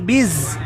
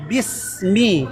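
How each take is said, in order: First: The consonant after 'bi' is a buzzing z. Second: The consonant after 'bi' is a hissing s. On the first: The speaker calls it wrong. "bukan biz" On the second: The speaker calls it right. "itu huruf sin biasa bismi"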